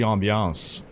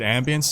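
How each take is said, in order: First: The word is given its French pronunciation. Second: The word is given an English pronunciation. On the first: "En français, on dit ambiance" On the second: "Is it ambience? Did you guys say it in English?"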